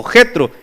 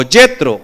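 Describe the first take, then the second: First: "Jetro" with a throaty Spanish J; Spanish J pronunciation. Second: "Jetro" with a Y-like first sound, as "Yetro"; alternative pronunciation. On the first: Preacher giving congregation the other form, "Jetro" with Spanish J. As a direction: say "Jetro" starting with an H-like rasp. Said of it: "O Jetro". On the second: Preacher offering congregation another form of the name, "Jetro" said "Yetro". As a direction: say "Jetro" starting like English "yet". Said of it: "o Jetro". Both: Shown as a demonstration.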